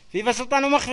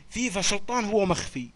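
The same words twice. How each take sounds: First: Raised and higher, calling out فيفا سلطان هو مخفي; louder dictation. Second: Said in the usual way. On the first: Shown as a demonstration. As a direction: call the phrase out so everyone hears. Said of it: "اكتبوا". (إملاء بصوت عالٍ ومرتفع) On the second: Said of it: "اكتبوا لي جملة كتابية فيها".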